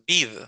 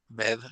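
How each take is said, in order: First: The vowel is a long ee sound. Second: The vowel is a short e sound. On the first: The speaker calls it wrong. "No es bid" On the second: The speaker calls it right. "¿Cómo sería solo con una E?"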